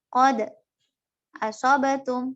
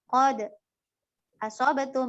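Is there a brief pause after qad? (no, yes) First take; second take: yes; yes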